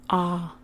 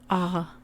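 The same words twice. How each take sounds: The two takes are said the same way.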